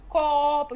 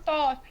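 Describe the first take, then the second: First: The word begins with a k sound. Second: Both syllables begin with a t sound. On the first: This is the adult pronunciation modeled for the child. The speaker calls it right. "você só fala o jeito certo" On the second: This is a young child's mispronunciation. The speaker calls it wrong. "às vezes eles falam errado, tipo, é, tipo copo, mas você vai falar toto"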